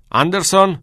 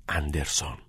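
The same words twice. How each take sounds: First: High, loud summons; shouted name. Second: Low, hushed single name; muttered reply. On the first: Old teacher summoning a waiting pupil, shouting. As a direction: shout the surname across the hall. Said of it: "دکتر هگر فریاد زد". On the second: Pupil answering a classmate on the sly, muttered. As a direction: murmur it under your breath, softer and lower. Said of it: "زیر لب در جوابش گفت". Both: A narrator's reading.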